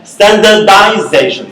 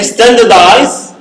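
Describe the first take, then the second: First: "Standardization" with the stress moved to the middle syllable. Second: STANdardize, the first syllable "Stan" pressed and drawn out slowly; stress on first syllable. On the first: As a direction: say "Standardization", hitting the syllable "za" and not the first syllable. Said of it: "the stress changes from the initial syllable to the middle". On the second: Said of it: "The, the stress changes from the initial syllable". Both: Shown as a demonstration.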